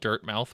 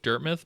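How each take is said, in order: First: The second syllable is a full 'mouth'. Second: The second syllable is a reduced 'muth'. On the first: The speaker calls it wrong. "I hate that I call it Dirt Mouth" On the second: The speaker calls it right. "it's probably supposed to be pronounced Dirt Myth"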